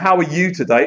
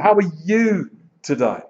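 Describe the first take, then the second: First: It is said casually, with no stress on you. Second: The stress falls on the word you.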